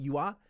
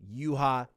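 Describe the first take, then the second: First: The middle consonant is a w sound. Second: The middle consonant is an h sound. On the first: This is how it seemed when reading the manga. The speaker calls it wrong. "I always thought it was pronounced like Yuwa" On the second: This is a shortened form of the full name. The speaker calls it right. "So now I just say Yuha"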